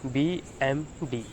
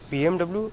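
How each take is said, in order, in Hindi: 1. अंतिम अक्षर किसी अलग ध्वनि की तरह बोला जाता है। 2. अंतिम अक्षर अंग्रेज़ी 'double-u' की तरह बोला जाता है। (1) "but it is pronounced as" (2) "It's not right"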